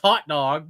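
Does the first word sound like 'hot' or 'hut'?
hot. The first word has the standard 'hot' vowel. This is the accepted way to say it. "I know it's hot dog"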